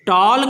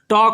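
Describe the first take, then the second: First: An l sound is heard before the final k. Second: No l sound is heard before the k. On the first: The speaker calls it wrong. "टॉल्क नहीं बोलते है ना" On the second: The speaker calls it right. "एल नहीं बोला जा रहा"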